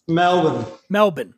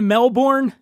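First: The name is said the Australian way. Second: The name is said the American way. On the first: The speaker calls it right. "we say Melbourne" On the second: The speaker calls it wrong. "you get a lot of people butchering"

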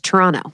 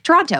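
First: The final T sound is dropped. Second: The final T sound is pronounced. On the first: The speaker calls it right. "You said it without a T" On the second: The speaker calls it wrong. "we used to say we should be like Toronto"

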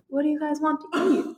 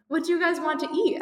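First: It is said in a shy, timid tone. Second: It is said in a plain, unshy tone.

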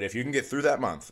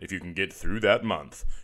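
First: It is said in a higher character voice. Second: It is said in a deep, low voice.

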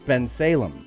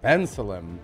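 First: The name is said with a non-native pronunciation. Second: The name is said with a native English pronunciation. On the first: "not Bensalem" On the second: "which is the way that somebody that speaks English as a first language would say it"

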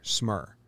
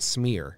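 First: The vowel sounds like the vowel in 'her'. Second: The vowel sounds like the vowel in 'ear'. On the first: The speaker calls it right. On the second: The speaker calls it wrong. "Not Smear"

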